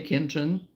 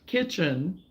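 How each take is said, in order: First: The word is pronounced in a quick, casual way. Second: The word is pronounced carefully and deliberately. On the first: The speaker calls it wrong. "if I'm talking fast, yeah, I'm going to say kitchen" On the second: The speaker calls it right. "because I try to be aware of me saying it"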